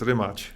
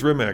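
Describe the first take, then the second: First: The name ends with a ch-like sound. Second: The name ends with a hard k sound. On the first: The speaker calls it right. "I'm going to say it the, the, the proper way" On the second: The speaker calls it wrong. "I don't think it's Rimac"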